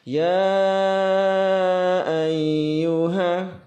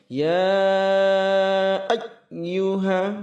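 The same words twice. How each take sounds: First: The doubled 'y' is said flat, without emphasis. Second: The doubled 'y' is pushed up too high. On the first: "terlalu datar juga" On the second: "terlalu tinggi yang kurang tepat"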